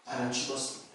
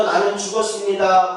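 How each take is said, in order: First: Hushed prayer. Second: Said in the usual way. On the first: Retold or imitated. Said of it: "한 열 번 정도를 그 기도를 반복해서 했대요". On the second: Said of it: "한 열 번 정도".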